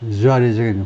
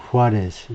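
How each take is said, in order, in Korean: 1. J 소리로 시작하고 Z로 끝나요. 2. H 소리로 시작하고 S로 끝나요.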